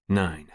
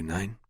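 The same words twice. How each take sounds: First: Nine read flat with a falling close; Nine announced, settling down at the end; chapter title. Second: Nine asked with a rising question tune; Nine lifted at the end, a calling question. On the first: A narrator's reading. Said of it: "Chapter twenty-four". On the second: Acted. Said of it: "What can I do for you".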